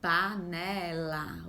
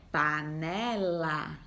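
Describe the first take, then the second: First: Panela slowly, the final la held; slow, stretched. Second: Panela said very slowly; slow, stretched. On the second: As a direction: draw out panela syllable by syllable. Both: Shown as a demonstration. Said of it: "O som final é o lá".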